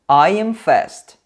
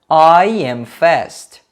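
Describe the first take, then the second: First: The sentence is said faster. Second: The sentence is said slowly. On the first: "Um pouquinho mais rápido" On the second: "vou pronunciar duas vezes devagar"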